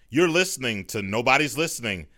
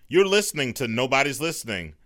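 Both takes have the same delivery.

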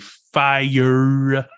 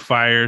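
First: The word is stretched out and exaggerated. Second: The word is said plainly at normal length. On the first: "she stretches and exaggerates certain words in weird ways" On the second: "instead of saying fire"

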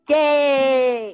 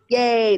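First: It is said with much more enthusiasm. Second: It is said with little enthusiasm.

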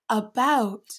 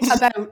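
First: It is pronounced slowly and carefully. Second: It is pronounced casually in a Canadian way. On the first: "saying it really carefully" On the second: "it's like about"

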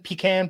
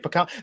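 First: Pecan is said with a Southern pronunciation. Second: Pecan is said with a non-Southern pronunciation. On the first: "isn't that more the southern pronunciation, pecan pie" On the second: "As I would say, pecan"

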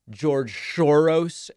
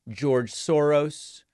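First: The name is said in an altered pronunciation. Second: The name is said in the standard way.

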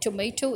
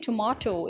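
First: It is said with an American accent. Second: It is said with a British accent.

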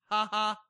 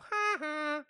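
First: A lower laugh, without the high pitch. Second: A high-pitched laugh like Nelson from The Simpsons.

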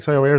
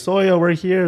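First: It is said very fast. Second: It is said at a normal speed.

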